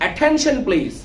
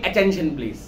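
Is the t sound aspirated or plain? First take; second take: aspirated; plain. First: The t is aspirated with a puff of air. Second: The t is plain, without a puff of air. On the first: The speaker calls it right. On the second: The speaker calls it wrong.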